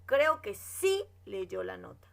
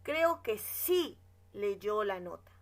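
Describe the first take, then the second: First: Sí leaned on, said slowly and firmly; stress on sí. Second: Said in the usual way. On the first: Shown as a demonstration. Teacher shows the class that sí affirms, stressing sí. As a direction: hit the word sí to mark it as an affirmation. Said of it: "O está afirmando". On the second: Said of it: "Por ejemplo".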